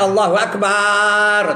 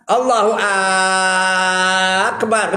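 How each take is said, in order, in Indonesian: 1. Suku kata bar dibaca panjang. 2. Suku kata Ak dibaca panjang. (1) "Jangan panjangkan bar tu, jangan Allahu Akbar. Tak betul" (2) "Ak tu pun tak boleh panjang"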